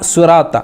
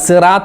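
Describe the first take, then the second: First: It begins with a heavy, emphatic s sound. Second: It begins with a plain, light s sound. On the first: The speaker calls it right. "അവിടെ സ്വാദാണ്" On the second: The speaker calls it wrong. "സി അല്ല, സിറാത്ത അല്ല"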